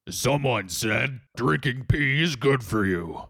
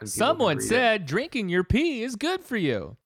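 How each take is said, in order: First: It sounds like a deep, rumbling, gravelly robot voice. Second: It sounds like a flat synthetic text-to-speech voice.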